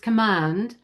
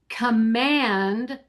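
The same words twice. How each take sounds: First: The stressed vowel is an open ah. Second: The stressed vowel is a short flat a. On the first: "becomes ah" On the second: "the short A"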